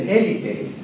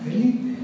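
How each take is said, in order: First: ÉLITE with the stress on the first syllable, E-li-te. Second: "élite" the French way, stress on the last syllable, e-LIT; French pronunciation. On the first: Teacher showing students a mistaken reading, stressed E-li-te in "élite". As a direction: say "élite" slowly as E-li-te, stress up front. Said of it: "acento de intensidad y dijo". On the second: Teacher correcting the reading for students, French e-LIT for "élite". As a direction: say "élite" as e-LIT with a silent final E. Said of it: "No, élite". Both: Shown as a demonstration.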